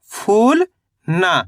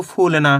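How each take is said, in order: First: फूल drawn out and rising, a pause, then ना; read in separate parts. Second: Said in the usual way. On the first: Shown as a demonstration. Teacher showing learners how to read it in parts, separated. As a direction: say फूल and ना as two separate pieces. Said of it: "पहले आपको फूल पढ़ना है". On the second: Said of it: "दोनों को मिला दो".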